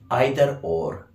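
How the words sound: It is pronounced the British way. "British say either or"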